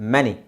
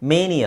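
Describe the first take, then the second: First: The first vowel is a short 'e' sound. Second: The first vowel is a long 'ay' sound. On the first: The speaker calls it right. "ಚಿಕ್ಕ ಎ" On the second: The speaker calls it wrong. "ಮೇನಿ ಅಲ್ಲ"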